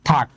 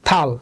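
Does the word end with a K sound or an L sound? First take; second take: K sound; L sound. First: The word ends with a k sound. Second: The word ends with an l sound. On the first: The speaker calls it right. "তাহলে সঠিক উচ্চারণ কি হবে" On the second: The speaker calls it wrong. "আমাদের পুরনো নিয়ম অনুযায়ী এটা হবে হচ্ছে থাল"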